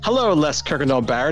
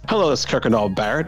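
First: The words are carefully and clearly articulated. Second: The words are slurred and not clearly articulated. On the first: The speaker calls it right. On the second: The speaker calls it wrong.

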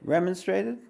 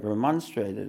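First: It is said with an English pronunciation. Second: It is said with an American pronunciation. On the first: "That's the English way" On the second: "Remonstrated is the American way"

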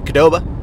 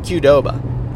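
First: The name begins with a plain 'kuh' sound. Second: The name begins with the letter-name 'cue'. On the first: The speaker calls it wrong. "It's not Qdoba. Q is not just like a different K" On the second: The speaker calls it right. "you just say the letter Q and then say Doba"

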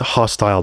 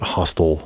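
First: The word does not sound like hostel. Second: The word sounds like hostel. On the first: The speaker calls it right. "I should say it's hostile" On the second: The speaker calls it wrong. "not hostile, like a hostel"

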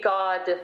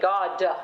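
First: The final d releases into a faint neutral vowel. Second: The final d releases into a full open vowel. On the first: The speaker calls it right. "a shadow neutral vowel on the end of a BD or a G" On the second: The speaker calls it wrong. "they make it a housetop"

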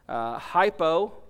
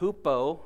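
First: The word is pronounced the English way. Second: The word is pronounced the Greek way.

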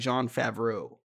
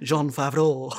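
First: The name is said in a plain American accent. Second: The name is said in a French accent.

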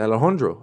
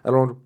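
First: The name is said slowly and clearly. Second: The name is said very fast.

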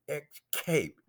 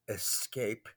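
First: The word is said without an S sound. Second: The word is said with an S sound. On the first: The speaker calls it wrong. "You didn't have an S in there" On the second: The speaker calls it right. "you didn't say escape"

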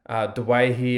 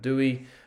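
First: The name has its traditional Lebanese pronunciation. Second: The name has a shortened, anglicized pronunciation. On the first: "We prefer the traditional Lebanese pronunciation of Dewahi" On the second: "may know him as Adam Dewey"

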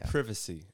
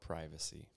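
First: It is said with a British pronunciation. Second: It is said with an American pronunciation.

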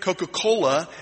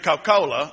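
First: It is said with a general American pronunciation. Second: It is said with a Southern Atlanta pronunciation. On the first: This is not how locals say it. "we don't say we drink Coca-Cola" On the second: This is how locals say it. "In Atlanta, we drink Coca-Cola in Atlanta"

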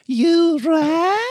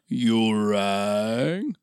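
First: It is in a voice unlike Lurch's. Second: It is in a voice close to Lurch's.

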